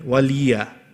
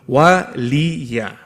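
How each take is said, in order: First: The L sound has no vowel after it. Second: The L sound is followed by a vowel. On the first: The speaker calls it wrong. "Many a times people make the lam into a sakin" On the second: The speaker calls it right. "No, no"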